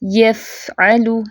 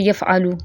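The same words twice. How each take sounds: First: यफ़अलु slow, breath running through the f; flowing fa. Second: यफ़अलु quick, with a cut-short f; jerked reading. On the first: Teacher models fa without a jerk, slow flowing f. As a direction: let the f in यफ़अलु stream before the next syllable. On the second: Teacher shows the mistake, quick jerked fa. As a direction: jerk off the f in यफ़अलु and hurry on. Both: Shown as a demonstration. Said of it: "इसको नहीं पढ़ना ऐसे".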